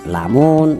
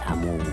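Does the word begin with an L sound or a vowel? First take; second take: L sound; vowel. First: The word starts with an L sound. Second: The word starts with a vowel sound. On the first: "secara umum ya memang lamun" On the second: "Di Banjarhulu hilang L-nya"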